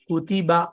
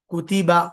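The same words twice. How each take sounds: Both takes have the same delivery.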